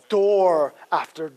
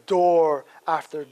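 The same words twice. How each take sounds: The two takes are said the same way.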